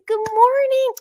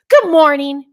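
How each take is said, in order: First: It is said in a cheerful, warm way. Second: It is said in a grumpy, tired way.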